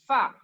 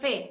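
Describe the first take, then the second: First: The name ends in an open 'a' vowel. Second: The name ends in an 'e' vowel. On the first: This is how the letter is read in Arabic. The speaker calls it right. "लेकिन अरबिक में पढ़ा जाएगा फा" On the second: This is how the letter is read in Urdu. The speaker calls it wrong. "हम पढ़ते हैं उर्दू में फे"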